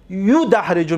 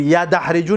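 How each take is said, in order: First: یدحرجو begun with yu, as yudahriju; یدحرجو pronounced yudahriju; first syllable yu. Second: یدحرجو begun with ya, as yadahriju; یدحرجو mispronounced as yadahriju; wrong first vowel ya. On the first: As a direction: say یدحرجو with u after the y. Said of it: "میگوی". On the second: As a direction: say یدحرجو with a after the y. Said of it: "نمیگیم". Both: Shown as a demonstration.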